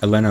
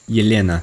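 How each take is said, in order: First: The name is said in a plain accent. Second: The name is said in a Russian accent.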